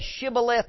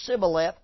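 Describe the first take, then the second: First: The word begins with a 'sh' sound. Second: The word begins with an 's' sound. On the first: The speaker calls it right. "when they tried to say Shibboleth" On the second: The speaker calls it wrong. "they said Sibboleth"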